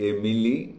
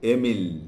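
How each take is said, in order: First: The name ends with an added 'ee' vowel. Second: The name ends on the 'l' sound. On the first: It sounds like a female name. The speaker calls it wrong. "অনেকে উচ্চারণ করে এমিলি, কিন্তু নয়" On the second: It is a male name. The speaker calls it right. "উচ্চারণটা হবে এমিল"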